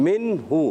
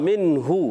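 No difference in how they are said.

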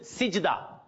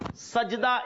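First: The first vowel is an 'i' sound. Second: The first vowel is an 'a' sound. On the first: The speaker calls it wrong. "Some people pronounce it sijda. Sijda is not the proper word" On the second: The speaker calls it right. "Sajda is the proper word"

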